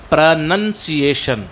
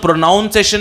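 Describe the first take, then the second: First: The second syllable sounds like 'nun'. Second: The second syllable sounds like 'noun'. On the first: The speaker calls it right. "उच्चारण के लिए बोलते हैं प्रोनंसिएशन" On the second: The speaker calls it wrong. "एक तो प्रोनाउंसिएशन नहीं बोलना है, नाउन प्रोनाउन नहीं होता है"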